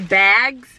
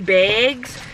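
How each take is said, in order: First: It is said without a Midwestern accent. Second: It is said with a Midwestern accent.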